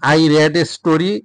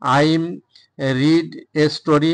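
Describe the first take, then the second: First: The vowel in 'read' is short, like 'red'. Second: The vowel in 'read' is long, like 'reed'. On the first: The reading happened in the past. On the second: The reading happens habitually in the present.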